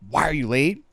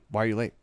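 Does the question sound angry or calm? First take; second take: angry; calm. First: The question sounds sharp, angry and agitated. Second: The question sounds calm, even and relaxed. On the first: The speaker is reacting emotionally and blaming. The speaker calls it wrong. "That's very triggered" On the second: The speaker is direct without emotional charge. The speaker calls it right. "if it's very calm"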